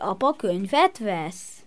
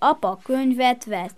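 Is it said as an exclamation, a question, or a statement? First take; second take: question; statement. First: It is said with a questioning tune. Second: It is said with a plain, stating tune. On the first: The speaker is asking whether it is true. "ezt kérdezheted is" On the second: The speaker simply reports it as fact.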